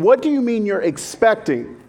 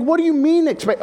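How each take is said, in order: First: Said in the usual way. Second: Much higher, startled blurt; [name]'s mock startled reaction to the news; shocked. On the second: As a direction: jump up in pitch, caught off guard.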